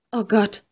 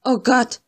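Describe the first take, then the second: First: Muted frightened lament; lightly wailing. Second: A rising, mildly louder cry of despair; mild frightened wail that grows. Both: Acted. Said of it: "jammerte sie".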